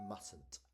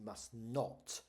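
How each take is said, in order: First: Contracted form, said in a neutral tone. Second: Full form, with strong emphasis on not. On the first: The speaker is stating an ordinary rule. "normal, sensible tone, mustn't is fine" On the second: The speaker is stressing a firm prohibition. "you would emphasize the word not"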